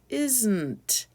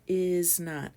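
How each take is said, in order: First: It is said quickly as one contracted word. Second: It is said as two separate words. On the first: "we say it even faster" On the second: "Two separate words"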